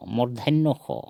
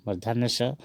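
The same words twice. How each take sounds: First: "मूर्धन्य खो" with kho for sa; Assamese pronunciation. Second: "मूर्धन्य स" with a final s sound; Hindi pronunciation. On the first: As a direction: say "मूर्धन्य खो" higher, rounded final o. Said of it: "असमिया में कहेंगे". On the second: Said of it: "इसको कहते हैं". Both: Shown as a demonstration.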